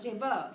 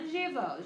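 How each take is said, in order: First: The stress is on the last syllable. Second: The stress is on the first syllable.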